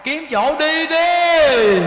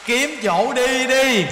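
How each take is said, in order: First: Slow, loud, high shout; shouted urging. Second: Drawn-out, slow urging call. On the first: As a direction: call it out loud and drawn out. (hét to, kéo dài từng chữ) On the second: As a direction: stretch each word out, pleading. Urging old women to leave. (kêu gọi chậm rãi, kéo dài) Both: Acted.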